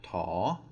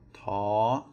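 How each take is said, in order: First: The pitch rises across the syllable. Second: The pitch stays high across the syllable. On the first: "then we would have a rising tone" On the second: "a high tone"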